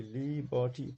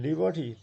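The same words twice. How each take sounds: First: "liberty" drawn out in three syllables. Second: Said in the usual way. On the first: Shown as a demonstration. Teacher showing students three syllables in "liberty", syllable by syllable. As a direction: separate the three beats of "liberty". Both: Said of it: "three syllables".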